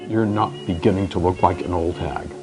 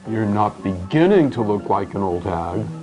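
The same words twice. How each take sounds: First: The word 'beginning' is not stressed. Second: The word 'beginning' is stressed.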